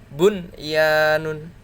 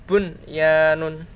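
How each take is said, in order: No difference in how they are said.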